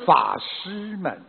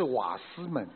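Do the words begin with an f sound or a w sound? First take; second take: f sound; w sound. First: It begins with an f sound, like fashi. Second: It begins with a w sound, like wasi. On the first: The speaker calls it right. "是法师们" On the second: The speaker calls it wrong. "不是瓦斯们"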